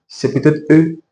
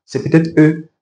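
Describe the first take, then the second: No difference in how they are said.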